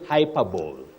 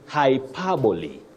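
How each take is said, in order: First: The word ends in one syllable like 'bowl'. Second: The word ends in two syllables, 'bo-lee'. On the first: The speaker calls it wrong. "don't say hyperbole" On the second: The speaker calls it right. "You say hyperbole"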